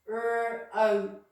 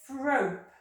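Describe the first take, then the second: First: The word is broken into separate sounds. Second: The sounds are blended into one smooth word.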